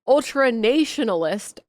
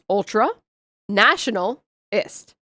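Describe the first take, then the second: First: National has a long a, as in nation. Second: National has a short a, as in nap. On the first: "nation and national are pronounced differently" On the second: "one of the few words that looks exactly the way it sounds"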